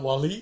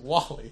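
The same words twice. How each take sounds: First: The name is said with a French-sounding flourish. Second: The name is said in a plain English way. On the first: The speaker calls it wrong. "Why did you pronounce it like a French film? ... It's not WALL-E" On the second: The speaker calls it right. "it's just WALL-E"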